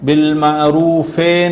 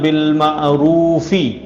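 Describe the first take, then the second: First: The word ends in an 'ay' vowel. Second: The word ends in a clear 'ee' vowel. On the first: The speaker calls it wrong. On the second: The speaker calls it right.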